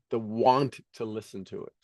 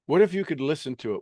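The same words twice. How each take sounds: First: Want stretched out and leaned on; lower, softer, with want held long; stress on want. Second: Said in the usual way. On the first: Shown as a demonstration. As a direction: draw out the word want.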